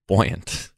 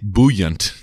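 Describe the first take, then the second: First: It is pronounced without sounding like soup. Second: It is pronounced so it sounds like soup. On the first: "What do you say?" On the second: "Like you're talking about like making soup"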